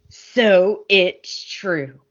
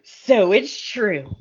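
First: Drawn out very slowly, a hammed-up soap reveal; even slower overplayed soap star reveal; mock dramatic, slower still. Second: Slow, hammed-up soap-opera gravity; overplayed soap star reveal; mock dramatic. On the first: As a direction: stretch every word for melodrama. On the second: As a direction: drag it out like a melodramatic entrance. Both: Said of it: "They walk in all dramatic and they go".

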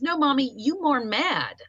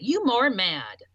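First: Lightly voiced little boy; child's words. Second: Put-on child's words. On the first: Mother voicing her toddler son, lightly childlike. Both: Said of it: "That's how he said it".

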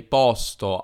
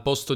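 First: "posto" with open O, Piedmont style, slow. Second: "posto" with closed O, standard. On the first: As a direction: stretch "posto" with a wide open O. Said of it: "direi posto". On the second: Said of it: "Al posto di dire posto". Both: Shown as a demonstration.

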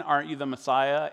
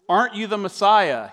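First: Said in the usual way. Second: Higher, louder jeering question; mocking insult. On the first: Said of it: "in the tone in which it was intended". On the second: Criminal on the cross taunting Jesus, jeering. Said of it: "hurled insults at him".

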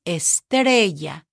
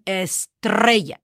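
First: Estrella with one lightly tapped R; estrella, no trill on the r; single soft R. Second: Estrella with a strongly trilled R; over-roll the r in estrella; wrong rolled R. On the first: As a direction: tap the r in estrella once. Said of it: "in the middle of the word". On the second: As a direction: estrella with a long rattling rr. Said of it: "You're not saying estrella". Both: Shown as a demonstration.

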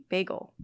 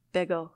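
First: "bagel" with a long A, like "bay-gull"; speaker's own pronunciation. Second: "bagel" with a short e, like "beggle"; other people's pronunciation. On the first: Showing how the speaker says it, "bagel" as "bay-gull". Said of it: "I, I say ba-, bagel". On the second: Showing how other people say it, "bagel" as "beggle". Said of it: "people say bagel". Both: Shown as a demonstration.

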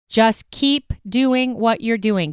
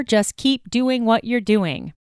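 First: Slow, heavier sarcasm; sarcastic, slower. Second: Dry, mocking sarcasm; sarcastic. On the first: Acted. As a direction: drag it out sarcastically. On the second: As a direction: say it with a sarcastic edge. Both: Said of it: "Do I sound sarcastic?".

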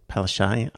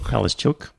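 First: Palaszczuk said as "Palashay", ending dropped; mispronounced name. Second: Palaszczuk said as "Pal-a-stchook" in full; corrected name. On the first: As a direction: Palaszczuk slurred to "Pal-a-shay". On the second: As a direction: Palaszczuk with a clear "-stchook" ending. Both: Real, not acted.

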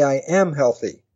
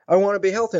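First: "am" stressed, then falling away. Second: Said in the usual way. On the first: Shown as a demonstration. Coach correcting the wish into a program, stress on "am". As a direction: lean on the word "am". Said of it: "You say". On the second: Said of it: "that's not the program".

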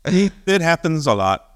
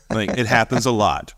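First: Slow, high, offhand shrug; mock nonchalant. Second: Said in the usual way. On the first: Icelander shrugging off the eruption, mock nonchalant. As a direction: say it like it's nothing. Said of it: "that just happens occasionally".

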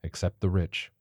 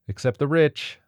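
First: Scoffing. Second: A bit higher, pointed; pointed correction. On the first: Lauren scoffing back at Martha, dry. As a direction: toss the words back with a scoff. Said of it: "Lauren scoffed". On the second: Martha cutting in to correct the others, pointed. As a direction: correct him with a sharp edge. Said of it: "said Martha". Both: A narrator's reading.

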